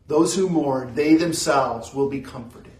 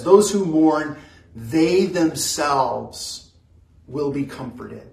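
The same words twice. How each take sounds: First: Said in the usual way. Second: "they themselves" drawn out very slowly; stress on they themselves. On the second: Shown as a demonstration. Pastor stressing the promise to mourners, slow and emphatic. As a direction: lean hard on "they themselves". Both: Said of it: "it says it very emphatically".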